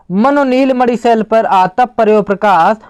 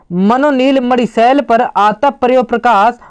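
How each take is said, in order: No difference in how they are said.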